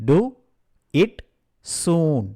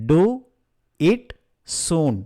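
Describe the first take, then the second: The two takes are said the same way.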